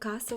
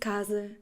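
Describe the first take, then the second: First: It is said with a Spanish pronunciation. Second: It is said with a Portuguese pronunciation. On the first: "in Spanish you say casa" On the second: "In Portuguese"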